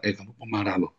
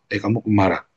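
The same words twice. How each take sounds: First: Quieter, gentle warning; soft self-reminder. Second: Said in the usual way. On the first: Retold or imitated. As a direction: say it softly to yourself. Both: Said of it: "kamu bilang".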